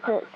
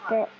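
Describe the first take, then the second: The two takes are said the same way.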